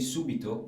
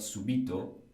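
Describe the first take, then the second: First: The stress is on the first syllable. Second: The stress is on the second syllable. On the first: It means immediately. The speaker calls it right. "say subito" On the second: It is a past participle. The speaker calls it wrong. "and not subito, because subito would be a past participle"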